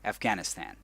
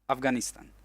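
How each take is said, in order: First: Pronounced the way English speakers say it. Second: Pronounced as in his own native language. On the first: "as they are meant to be pronounced in the language that I'm currently using" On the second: "the way that I pronounce it when I speak my own language"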